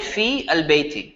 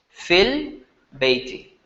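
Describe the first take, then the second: First: The long vowel and full article are both pronounced. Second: The vowel is shortened and merged into the article. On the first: This is how it is written. "You're still going to write it" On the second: This is how it is read aloud connected. "As if the ya is not there"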